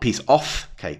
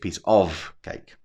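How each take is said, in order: First: The final sound of 'of' is a voiceless f. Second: The final sound of 'of' is a voiced v. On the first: The speaker calls it wrong. "it's not not piece off cake" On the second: The speaker calls it right. "that sound is actually voiced"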